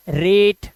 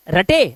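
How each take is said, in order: First: रेट in one syllable with a long "e", like rate; correct reading demo. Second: रटे split into two syllables, the mistaken way; wrong reading demo. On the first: Teacher giving the right reading रेट, one syllable. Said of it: "रटे नहीं, रेट". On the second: Teacher showing the wrong reading रटे, two syllables. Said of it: "रटे नहीं". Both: Shown as a demonstration.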